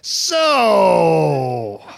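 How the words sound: It sounds disgusted, as after being thrown up on.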